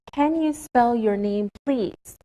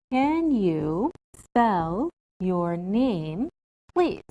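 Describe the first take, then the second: First: Said in the usual way. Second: Very slow, each word spaced out; slow careful model. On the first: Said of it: "are more polite questions". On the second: Shown as a demonstration. Teacher models a polite question slowly for students. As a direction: model it slowly for the class to copy. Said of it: "So we can say".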